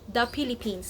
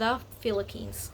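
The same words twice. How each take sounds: First: The word begins with a P sound. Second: The word begins with an F sound. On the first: The speaker calls it wrong. "we don't really pronounce the P H and the T H" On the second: The speaker calls it right. "instead of the Philippines"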